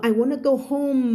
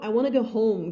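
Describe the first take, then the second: First: "I wanna go home" higher, with a drawn-out HOME; mock careful drill version of "I wanna go home"; over-enunciated practice take. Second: Said in the usual way. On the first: Shown as a demonstration. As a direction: exaggerate the ending of "home" like a drill. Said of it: "อันนี้คือฝึกพูดนะ เวลาเธอไปพูดจริงๆก็". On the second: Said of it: "พูดจริงๆเธอก็แบบ".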